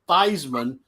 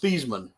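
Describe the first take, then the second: First: The name rhymes with Heisman. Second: The name does not rhyme with Heisman. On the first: This pronunciation was adopted to match a trophy's name. "pronounce it Theismann because it rhymed with Heisman" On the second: This is the family's original pronunciation. "His his name is Thiesman"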